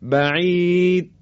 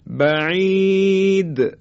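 First: The final d is held without an audible bounce. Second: The final d is released with an audible bounce. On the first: The speaker calls it wrong. "حرف دال دیگه شنیده نمیشه و این صحیح نیست" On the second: The speaker calls it right. "این تکون خوردن رو میگیم قلقله"

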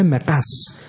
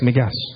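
First: The word begins with a q sound. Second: The word begins with a g sound. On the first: This is the original form of the word. "اما اصل کلمه مقص" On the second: This is the everyday colloquial form. "با گاف هم میگن"

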